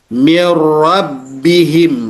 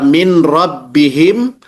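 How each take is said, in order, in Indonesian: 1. Bunyi n langsung menyatu dengan r. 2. Bunyi n diucapkan dengan jelas sebelum r. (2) "tidak dibaca min rabbihim"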